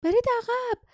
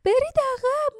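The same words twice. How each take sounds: First: Much higher voiced cry of برید عقب; young woman yelling برید عقب; girl shouting. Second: Second, more desperate cry of برید عقب; girl shouting. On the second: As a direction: repeat برید عقب pitched up further. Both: A narrator's reading. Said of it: "جاسمین فریاد زد".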